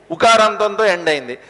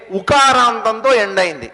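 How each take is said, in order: Both takes have the same delivery.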